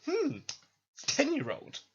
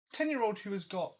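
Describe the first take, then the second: First: Higher, pompous musing; sizing up the kid grandly; mock champion. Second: Said in the usual way. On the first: Champion Steven eyeing the ten-year-old, pompous. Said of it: "and goes".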